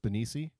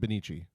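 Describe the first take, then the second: First: The middle consonant is an s sound. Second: The middle consonant is a ch sound. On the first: The speaker calls it wrong. "is it like a S, like an S sound? So it's Benici" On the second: The speaker calls it right. "or is it Benici?"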